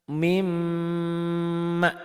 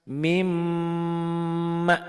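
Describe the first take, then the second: No difference in how they are said.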